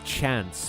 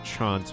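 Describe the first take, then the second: First: It is said in a put-on character voice. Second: It is said in the normal speaking voice. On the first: "when I'm doing a voice" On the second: "when I talk normally"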